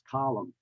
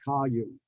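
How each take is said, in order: First: The L is a clear, ordinary L sound. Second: The L sounds like a Y glide. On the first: The speaker calls it right. "retain the classic uh, L sound" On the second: The speaker calls it wrong. "It's not column"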